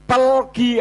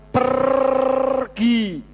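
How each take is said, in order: First: The word is said with an l sound. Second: The word is said with an r sound. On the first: "ngomongnya apa?" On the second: "tidak bisa mengatakan pergi"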